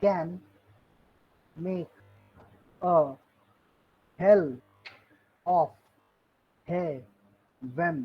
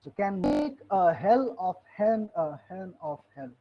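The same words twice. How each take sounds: First: Each word set apart by long pauses, heaven in two syllables; counting the beat of every word; slow word-by-word scansion. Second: "hen" said as a single clipped syllable like "heav'n"; heaven as one syllable. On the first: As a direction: scan it one word at a time, slowly. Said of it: "Milton pronounced heaven not as heaven". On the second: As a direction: squeeze "hen" into one beat, slow and deliberate. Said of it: "Milton pronounced heaven not as heaven, but as hen". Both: Shown as a demonstration.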